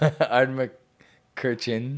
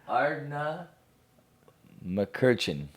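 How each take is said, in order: First: No 'na' syllable follows the opening 'Ard'. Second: A 'na' syllable follows the opening 'Ard'. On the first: The speaker calls it wrong. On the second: The speaker calls it right.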